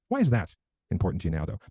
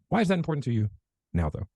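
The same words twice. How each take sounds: First: There is no pause before 'now'. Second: There is a pause right before 'now'. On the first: The listener is led back to what was just discussed. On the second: The listener is led to talk about the time frame.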